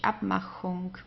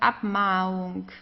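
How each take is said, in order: First: A breathy 'ch' sound is heard mid-word. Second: No 'ch' sound; the vowel is just stretched. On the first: This is how the word is actually spelled and said. The speaker calls it right. "so you just actually can hear the H" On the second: This is how it would sound without the C. The speaker calls it wrong. "If there was no C in this case, for example, we would pronounce it as Abmachung"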